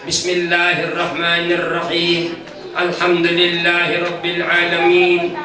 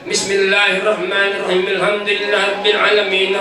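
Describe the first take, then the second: First: There is a clear pause between the verses. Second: The verses run together without a pause.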